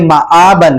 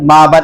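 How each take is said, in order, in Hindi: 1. ग्लॉटल कैच दोनों स्वरों को अलग करता है। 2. दोनों स्वर बिना ग्लॉटल कैच के आपस में मिल जाते हैं। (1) "हमजा की जो अदायगी है वो ठीक तरीके से हो" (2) "बच्चे इस लफ्ज में बहुत ज्यादा गलती करते हैं"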